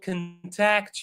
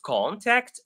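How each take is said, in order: First: The stress is on the second syllable. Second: The stress is on the first syllable. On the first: It is used as a verb. "when it is a verb, it's the second syllable that is pronounced" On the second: It is used as a noun. "but when it is a noun"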